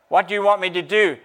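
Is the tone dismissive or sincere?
sincere. It sounds sincere and willing to help. A genuine offer to help. "No, he said"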